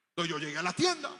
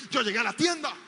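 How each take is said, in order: First: Said in the usual way. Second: Yo llegué a la tienda said higher and louder, tienda falling hard; stress on tienda. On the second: Shown as a demonstration. Preacher repeating his point, hitting tienda louder.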